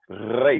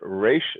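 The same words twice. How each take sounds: First: The r is rolled against the teeth. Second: The r is a North American r. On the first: "a tooth rolling Resh" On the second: "the way we do it in North America"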